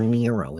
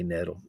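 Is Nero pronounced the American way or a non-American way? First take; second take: American; non-American. First: Nero is said in an American way. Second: Nero is said in a non-American way.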